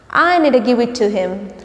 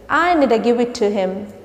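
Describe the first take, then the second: No difference in how they are said.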